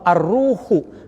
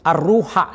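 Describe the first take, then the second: First: The word ends with a 'u' vowel. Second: The word ends with an 'a' vowel. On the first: The speaker calls it wrong. "Pasti itu keliru kan?" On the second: The speaker calls it right. "ismul mansub, ar-ruha dibacanya"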